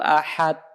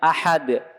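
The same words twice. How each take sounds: First: The final d stops flat without a bounce. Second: The final d ends with an echoing bounce. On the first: The speaker calls it wrong. "huruf-huruf qalqalah, sukun ya, nggak dipantulkan" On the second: The speaker calls it right. "Harusnya kan dipantulkan"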